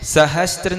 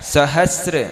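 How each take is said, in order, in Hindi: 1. r से पहले t की ध्वनि आती है। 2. r से पहले t की ध्वनि नहीं आती। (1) "सहस्त्र नहीं बोलना" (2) "स है और स में र लगा, स्र"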